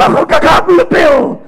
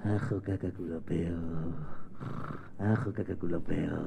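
First: Put-on high, loud baby squawk; excited baby babble. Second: Very soft, low sleepy murmur; sleeping baby babble. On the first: Baby brother answering Mateo, loud high babble. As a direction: shout nonsense like a wide-awake baby. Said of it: "su hermano Pablete". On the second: Acted. Baby brother asleep in bed, faint sleepy babble. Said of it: "el hermanito ya durmiendo".

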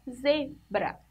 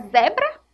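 First: "zebra" with a closed first E, "zê"; correct closed vowel. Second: "zebra" with an open first E, like "zé"; wrong open vowel. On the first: Teacher correcting the reading for pupils, closed-E "zebra". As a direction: say "zebra" as ZÊ-bra, syllables apart. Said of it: "a gente fala zebra". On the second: Teacher testing a wrong reading for pupils, open-E "zebra". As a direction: say "zebra" as a doubtful ZÉ-bra, questioning. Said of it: "Não, a gente fala zebra". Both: Shown as a demonstration.

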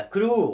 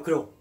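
First: كرو with its final vowel held long. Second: كرو with a short, cut-off final vowel; short vowel mistake. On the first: Teacher shows learners the correct word, long vowel. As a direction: draw out the end of كرو. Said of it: "فهنا كانت طويلة". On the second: Teacher shows what we don't say, short vowel. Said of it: "ولا نقول كرو". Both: Shown as a demonstration.

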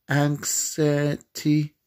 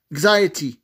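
First: "anxiety" sounded out slowly, piece by piece; sounding out. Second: Said in the usual way. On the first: Real, not acted. Player working out how to spell it, slowly sounding out "anxiety". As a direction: stretch "anxiety" slowly, feeling for each part. Sounding out the word while typing.

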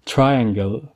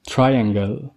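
No difference in how they are said.

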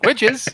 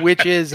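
First: Higher-pitched, questioning "Witches?"; mock-startled query, pitch jumping up; puzzled reaction. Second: Said in the usual way. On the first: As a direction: perk up as if witches were mentioned. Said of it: "and I'm like, "Witches?". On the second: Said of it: "you keep saying witches".

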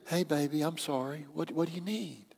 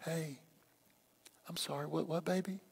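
First: Soft, gentle apology to a partner; hushed, placating voice; bass-free soft apology. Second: Barely audible, tender apology; very hushed, soothing murmur to a partner; even softer apology. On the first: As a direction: drop the volume right down and soothe. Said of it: "take the bass out of your voice". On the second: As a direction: say it extremely softly, almost under the breath. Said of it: "say it softer than you would". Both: Shown as a demonstration.

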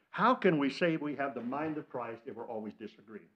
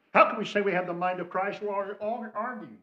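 First: Said in the usual way. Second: Plain. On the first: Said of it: "repeats louder". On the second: Shown as a demonstration. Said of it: "repeated question".

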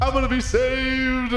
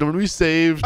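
First: High, drawn-out cry of relief; elated relief. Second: Said in the usual way. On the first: Pretend. Captive as the cops arrive, high elated wail. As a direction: stretch it out high, overjoyed at rescue.

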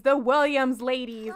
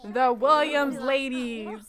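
First: Said in the usual way. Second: "Williams" drawn out slow and proud; slow down and lean on "Williams"; stress on Williams. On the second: Shown as a demonstration.

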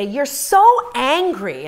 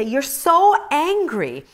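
First: Slow, higher, louder mocking of husband; husband's reproach. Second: Slow, higher, louder mimic of husband; husband's reproach. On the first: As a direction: drag out the reproach like her husband did. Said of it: "and he'd say". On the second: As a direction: stretch it out, mocking his words. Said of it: "and he would just say".

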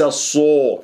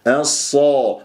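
First: الصا distorted into a rounded الصو; over-rounded Sad. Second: الصا drawn out with full ص and open a; open heavy Sad. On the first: Teacher imitates the mistake, rounded الصو. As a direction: round the vowel after ص toward o. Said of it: "وليس الصو". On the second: Teacher models the right vowel, open heavy الصا. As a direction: hold الصا heavy without rounding. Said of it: "الصا وليس الصو". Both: Shown as a demonstration.

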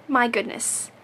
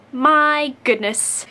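First: Said in the usual way. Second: Slow My goodness, louder, falling; exasperated fondness. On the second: Real, not acted. Teasing a dear friend, slow and fond. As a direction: savour "My goodness" in fond disbelief. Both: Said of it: "You Disney character".

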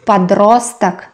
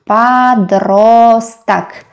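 First: Said in the usual way. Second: "Подросток" stretched syllable by syllable; very slow teacher's model of "Подросток"; slow sounding-out. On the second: Shown as a demonstration. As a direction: draw out each vowel of "Подросток". Teacher sounds out new word.

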